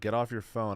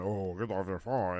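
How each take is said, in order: First: It is said in a plain, sincere tone. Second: It is said in a mocking, preachy tone.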